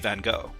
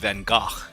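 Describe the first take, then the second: First: The name is said with English pronunciation. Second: The name is said with Dutch pronunciation. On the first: "they say" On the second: "Vincent van Gogh in Dutch is"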